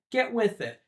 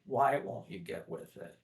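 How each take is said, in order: First: Short higher-pitched order, lightly acted; blunt demand. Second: Softer, understated pleading; retold plea. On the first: Father in the original ordering his son, lightly mimicked blunt demand. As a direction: give a retold impatient command. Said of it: "it's more of a plea from both their sides, rather in the original". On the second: Father in the live action imploring his son, softly acted plea. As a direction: drop the volume into a mild imitated plea. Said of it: "it's more of a plea".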